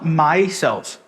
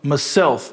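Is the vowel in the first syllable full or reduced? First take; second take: full; reduced. First: The first vowel is a full 'my' sound. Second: The first vowel is reduced to a schwa. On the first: "not myself" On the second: "schwa aqui"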